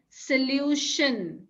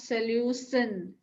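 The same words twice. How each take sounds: First: The middle consonant is an sh sound. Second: The middle consonant is a plain s sound. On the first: The speaker calls it right. "Then solution" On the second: The speaker calls it wrong. "not solution"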